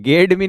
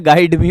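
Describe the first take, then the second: First: The first word has an 'eh' vowel. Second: The first word has an 'eye' vowel. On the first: The speaker calls it wrong. "गेड मी नहीं होता बेटा" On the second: The speaker calls it right. "गाइड me होता है"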